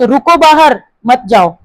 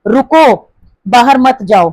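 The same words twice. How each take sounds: First: "बाहर" stressed, said slowly. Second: "रुको" stressed, said slowly. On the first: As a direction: lean on "बाहर" and slow down. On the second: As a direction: hit "रुको" first, then the rest slowly. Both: Shown as a demonstration. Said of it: "meaning change हो गया".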